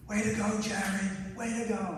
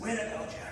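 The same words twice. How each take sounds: First: High-pitched cheering call from the crowd; dad shouting from the stands. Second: Put-on high-pitched cheer in a heavy Boston accent. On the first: Retold or imitated. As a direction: call out like a proud father cheering across the stadium. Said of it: "I could hear him shouting my name". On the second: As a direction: imitate a Boston dad yelling "Way to go, Jared!". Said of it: "He's got that really heavy Boston accent".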